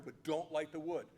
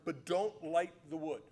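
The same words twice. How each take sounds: First: Said in the usual way. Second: "don't" leaned on, slow and a bit louder; slow emphatic warning. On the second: Shown as a demonstration. Elijah laying down the challenge's rules to Baal's prophets, slow and firm. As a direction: spell out the rule firmly.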